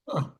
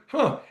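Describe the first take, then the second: First: Said in the usual way. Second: Higher mock huh. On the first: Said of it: "I was like". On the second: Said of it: "I just went".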